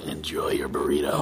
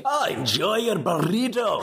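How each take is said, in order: First: Castiel voice. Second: Slow, broad Scottish groundskeeper; a hammy Scottish burr; Scottish accent. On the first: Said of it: "now do the Castiel". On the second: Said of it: "terrible Scottish accent read". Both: Acted.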